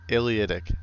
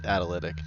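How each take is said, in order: First: The word begins with an 'ay-lee' sound. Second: The word begins with an 'at' sound. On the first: The speaker calls it right. "That's how you say it" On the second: The speaker calls it wrong. "not Atalytic"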